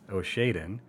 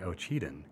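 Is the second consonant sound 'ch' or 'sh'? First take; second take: sh; ch. First: The second consonant sounds like 'sh'. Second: The second consonant sounds like 'ch'. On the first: The speaker calls it wrong. "for many years, I've pronounced this city as Oshaden, and I was corrected" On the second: The speaker calls it right. "It is actually Ocheden"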